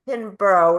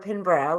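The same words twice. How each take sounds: First: The ending is said as a full 'borough'. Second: The ending is reduced to a short 'bruh'. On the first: This is the American way of saying it. The speaker calls it wrong. "which is how I would have in my mind pronounced it" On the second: This is how the name's owner says it. The speaker calls it right. "which is how she says it"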